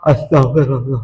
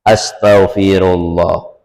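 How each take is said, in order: First: It is said through a yawn. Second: It is said clearly, without yawning. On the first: The plea is careless and is not recorded. The speaker calls it wrong. "Jangan sesambil menguap" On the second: The plea for forgiveness is sincere. The speaker calls it right. "Yang benar caranya"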